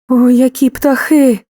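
The voice sounds frightened and afraid. The speaker is scared of the birds. "страх"

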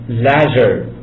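It is said with a British accent.

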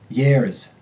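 An Irish accent, pitch rising on the R ending. "R-vowels rise in pitch"

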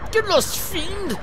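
It is said in an exaggerated posh British accent.

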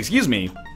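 It is said in a bold, commanding tone.

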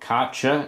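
It is said the American way. "as they say in the USA"

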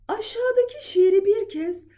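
The voice is at its thinnest, highest pitch. "En ince sesimle okuyorum"

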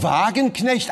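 The name is said with German pronunciation. "einer sagt Frau Wagenknecht"

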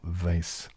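Vase is said in an American way.

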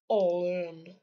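It is said in a put-on deep voice.

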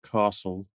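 It is said in a British accent. "This is pronounced castle in British English"

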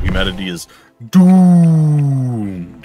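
It is said in a heavy, dramatic way.

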